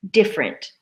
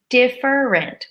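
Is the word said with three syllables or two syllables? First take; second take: two syllables; three syllables. First: The word is squeezed into two syllables. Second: The word is said with three full syllables. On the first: "often we squish it together, different, with two syllables" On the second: "which would be three syllables"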